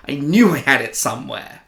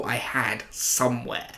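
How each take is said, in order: First: "knew" hit louder, insisting; stress on knew. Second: Said in the usual way. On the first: Real, not acted. Vlogger insisting to viewers he still owned the helmet, stress on "knew". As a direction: lean hard on "knew" as if sure.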